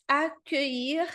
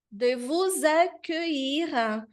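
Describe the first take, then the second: First: "accueillir" as akøi, slow with a rising end; slow French. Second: "de vous accueillir" as de vuz akøiʁ, slow; slow French. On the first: Teacher repeating the word slowly. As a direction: drawl out "accueillir" gently. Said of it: "I L L tem esse som de I". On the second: Teacher reading the phrase slowly aloud. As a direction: stretch out each syllable of "accueillir". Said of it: "de novo o U". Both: Shown as a demonstration.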